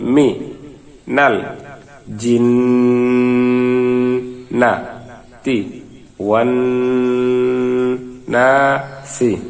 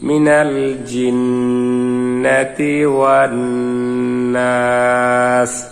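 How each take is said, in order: First: Each syllable is said separately with breaks. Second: The syllables flow together without breaks. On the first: "ভাঙ্গা ভাঙ্গা উচ্চারণ" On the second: "মিলিয়ে পড়ি"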